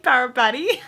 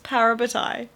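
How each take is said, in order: First: The last syllable sounds like 'tee'. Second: The last syllable sounds like 'tie'. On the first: The speaker calls it wrong. "I've been pronouncing it wrong" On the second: The speaker calls it right. "it's Parabatai"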